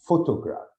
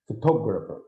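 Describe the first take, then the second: First: "photograph" with PHO louder and longer; stress on first syllable. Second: "photographer" with TOG louder and longer; stress on second syllable. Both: Shown as a demonstration. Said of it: "it means that it will be louder".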